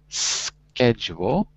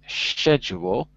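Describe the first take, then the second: First: It is pronounced in an American accent. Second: It is pronounced in a British accent. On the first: "in American English, the word is schedule" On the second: "In British English, it's schedule"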